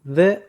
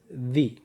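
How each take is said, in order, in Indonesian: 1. Bentuk 'the' yang dipakai sebelum bunyi konsonan. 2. Bentuk 'the' yang dipakai sebelum bunyi vokal. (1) "Dibaca the saat menghadapi huruf konsonan" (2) "Dibaca the saat menghadapi huruf vokal"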